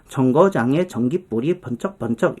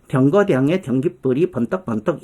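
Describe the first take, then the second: First: The key consonants are palatal affricates like j and ch. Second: The key consonants are plain stops like d and t. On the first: This is how it is said today. "우리는 지금 정거장에 전깃불이 번쩍번쩍 이렇게 얘기하지만" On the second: This is how it was said a century ago. "구개음화가 안 돼갖고"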